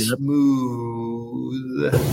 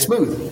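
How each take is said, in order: First: The word is drawn out slowly and softly. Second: The word is said quickly with more energy. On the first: "Instead of saying smooth" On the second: "go a little faster with his smoothness"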